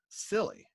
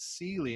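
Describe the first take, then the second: First: The name sounds like the word silly. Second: The name sounds like Sealy, with a long vowel. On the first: The speaker calls it wrong. "He mispronounced it, S I L L Y" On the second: The speaker calls it right. "it's pronounced Sealy"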